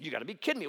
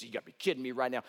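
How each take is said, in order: First: A touch of irritation, mildly acted; mock annoyed disbelief. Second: Rattled off fast, mock exasperation; fast annoyed outburst. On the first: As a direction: play the offended general, lightly. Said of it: "Naaman was ticked off about that". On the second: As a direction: blurt it out, lightly acted. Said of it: "And Naaman's upset".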